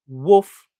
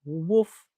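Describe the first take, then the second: First: A big, loud playful woof for the toy dog; hammed-up woof, louder; loud dog bark. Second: Gentle mock woof. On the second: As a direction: let the dog give a little woof. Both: Voicing the cast iron dog.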